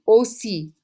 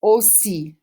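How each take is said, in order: First: Aussi said slowly and clearly, oh-SEE; model pronunciation. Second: Said in the usual way. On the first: Shown as a demonstration. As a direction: model Aussi for the class to repeat. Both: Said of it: "Say it after me".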